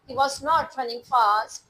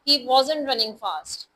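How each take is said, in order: First: Was and not are said as separate words. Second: Was and not merge into one short word.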